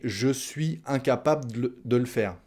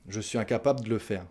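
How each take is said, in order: First: "de le faire" said as "de l'faire"; dropped E. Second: Quick "incapable de le faire" as "incapab d'le faire"; dropped E. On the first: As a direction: swallow the E of "le" before "faire". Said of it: "On mange les E". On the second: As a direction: swallow the E of "de", fast. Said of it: "soit de de, soit de le". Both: Shown as a demonstration.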